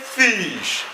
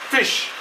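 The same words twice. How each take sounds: First: The vowel is stretched long, like 'feesh'. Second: The vowel is short and quick, as in 'fit'. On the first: The speaker calls it wrong. "Don't say fish. It's wrong" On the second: The speaker calls it right. "So you use fish"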